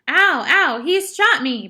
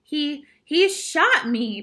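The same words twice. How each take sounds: First: High, loud yelp of pain; pained scream. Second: Stammered, high, slow disbelief; shocked voice. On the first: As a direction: cry out loudly, hurt and outraged. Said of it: "Patrick screamed". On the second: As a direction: say it haltingly, stunned and loud. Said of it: "in a shocked voice". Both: A narrator's reading.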